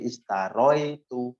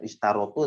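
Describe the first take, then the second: First: An 'oi' glide comes before the ending 'tu'. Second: A plain 'o' comes before the ending 'tu'. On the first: The speaker calls it right. "tapi istaroi itu" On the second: The speaker calls it wrong. "bukan istarotu"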